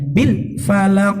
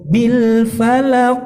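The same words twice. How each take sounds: First: The phrase is rushed and over-articulated. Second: The phrase is said at a moderate pace. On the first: The speaker calls it wrong. "jangan terlalu cepat atau jangan terlalu over jelasnya" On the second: The speaker calls it right. "Jadi cukup"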